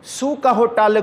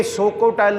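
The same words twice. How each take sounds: First: ਸੁ with u, not o. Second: ਸੋ with long o, as misread; wrong o in ਸੋ. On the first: Preacher reading the corrected verse, ਸੁ with u. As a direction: open with ਸੁ said with a u vowel. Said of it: "ਔਂਕੜ ਹੈ". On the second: Preacher showing how not to read it, ਸੋ with long o. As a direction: open with ਸੋ said with o. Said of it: "ਸੱਸੇ ਨੂੰ ਇੱਥੇ ਹੋੜਾ ਨਹੀਂ". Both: Shown as a demonstration.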